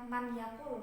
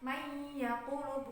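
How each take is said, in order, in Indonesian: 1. Bunyi n dilafalkan jelas sebelum y. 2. Bunyi n menyatu dengan bunyi y setelahnya. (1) "bukan man yaqulu" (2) "Bacanya kan may yaqulu"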